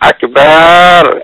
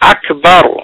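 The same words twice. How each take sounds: First: The final syllable is drawn out long. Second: The final syllable is kept short.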